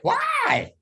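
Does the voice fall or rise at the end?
rise. The pitch rises at the end. The listener feels pushed to give the expected answer. The speaker calls it wrong. "The pitch in your voice goes up"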